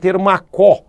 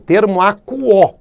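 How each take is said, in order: First: The 'u' sound in 'quo' is left out. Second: The 'u' sound in 'quo' is clearly pronounced. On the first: The speaker calls it wrong. "não pode, podemos falar termo acó" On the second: The speaker calls it right. "tem que ser pronunciado o U"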